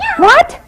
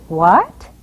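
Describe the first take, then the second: First: It is said as an excited exclamation. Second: It is said as a questioning word. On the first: The speaker is excited about something. "this means that you're pretty excited about something" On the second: The speaker is asking something. "This means it's a question"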